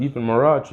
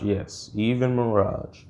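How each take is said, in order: First: "Even Mirage?" with the end lifted as a question. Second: "Yes, even Mirage." slow, falling at the end; confirming. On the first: Kid asks if Mirage has powers, questioning. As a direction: ask "Even Mirage?" in disbelief, voice rising at the end. Retold question, then confirmed. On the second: Mentor answers the kid's question, confirming. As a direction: settle "even Mirage" slowly downward as a sure answer. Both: Retold or imitated.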